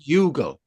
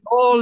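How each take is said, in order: First: It sounds like yoo-gal, with a hard g. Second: It sounds like y'all, with no g sound. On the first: The speaker calls it wrong. "Often pronounced Yugal. ... there's nothing wrong with that pronunciation except it is wrong" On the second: The speaker calls it right. "y'all is spelt Y O U G H A L"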